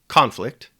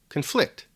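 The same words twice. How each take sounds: First: The stress is on the first syllable. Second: The stress is on the second syllable. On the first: "the stress or emphasis is placed on different syllables" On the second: "the stress or emphasis is placed on different syllables"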